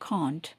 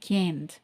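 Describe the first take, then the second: First: It is said in a British accent. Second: It is said in an American accent. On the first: "British இங்கிலீஷில் சொல்கிறது வந்து" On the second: "American இங்கிலீஷில் சொல்கிறது வந்து"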